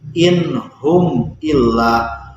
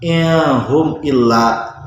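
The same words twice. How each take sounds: First: The n sound is pronounced clearly. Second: The n sound is hidden and blurred. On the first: The speaker calls it right. "Nun matinya dibacanya jelas" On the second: The speaker calls it wrong. "bukan in hum illa. Itu contoh I P A"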